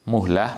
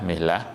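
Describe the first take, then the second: First: The vowel after the m is u. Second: The vowel after the m is i. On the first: "bidhammil mim" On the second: "atau dibaca mihlah juga boleh"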